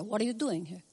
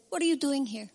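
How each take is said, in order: First: Lightly voiced Jewish mother, softer. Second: Said in the usual way. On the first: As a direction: chide gently like a Jewish mother. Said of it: "I'm saying it like a Jewish mother". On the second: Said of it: "But he said".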